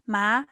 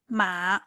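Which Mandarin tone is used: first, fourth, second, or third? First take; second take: second; third. First: The syllable is said with the second tone. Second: The syllable is said with the third tone. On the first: The word means numb. "ma it means numb" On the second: The word means horse. "The third one ma it means horse"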